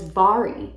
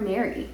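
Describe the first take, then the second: First: The name starts with a B-like sound. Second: The name starts with an M sound. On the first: The speaker calls it right. "apparently you pronounce this woman's name is Bari" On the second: The speaker calls it wrong. "I kept calling her Mary"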